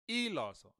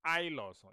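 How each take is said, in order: First: "iloso" begun with an ee sound; correct first vowel. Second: "iloso" begun like English "eye"; wrong first vowel. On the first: Teacher giving learners the right form, ee vowel stressed. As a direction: say "iloso" as ee-loso. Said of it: "it's iloso". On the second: Teacher warning learners off the English reading, mispronounced first vowel. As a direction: say "iloso" with an opening eye sound. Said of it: "So it's not iloso". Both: Shown as a demonstration.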